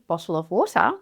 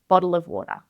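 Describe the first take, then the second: First: The T sounds are said as clear T sounds. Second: The T sounds are said as soft D sounds. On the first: "You might hear" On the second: "but more commonly is"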